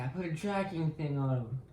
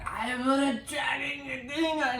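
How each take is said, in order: First: Said in the usual way. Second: High, strained shouty whine; hammed-up desperate excuse; mock frantic protest. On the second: Voicing Reva protesting to Vader.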